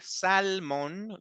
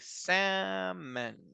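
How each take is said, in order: First: The L sound is clearly pronounced. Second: The L sound is left out entirely. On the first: The speaker calls it wrong. "I don't say salmon. No, I don't say l" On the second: The speaker calls it right. "I say salmon. ... imagine that there is no L there"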